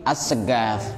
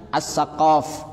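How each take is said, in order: First: The middle consonant is a g. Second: The middle consonant is a deep q. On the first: "jadi as-segaf" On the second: "misalnya as-saqaf"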